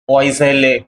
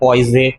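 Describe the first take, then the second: First: The ending is pronounced as a full syllable. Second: The ending is left silent after the first syllables. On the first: "पीएल पॉइसे यू आई double एल ई" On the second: "फिर यू आई एल एल ई को silent ले लेते हैं"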